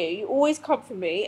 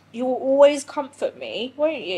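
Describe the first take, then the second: First: Said in the usual way. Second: Talking to the dog. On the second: Real, not acted. Cooing to her dog Nico.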